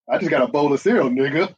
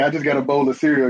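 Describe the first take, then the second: First: Cereal stressed, then nigga tacked on with a rising tail; emphasis with a tag word. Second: Said in the usual way. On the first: Shown as a demonstration. Showing friends how the tag word adds emphasis, casual stress. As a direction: lean on cereal and add nigga at the end. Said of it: "It puts an emphasis". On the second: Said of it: "if I say".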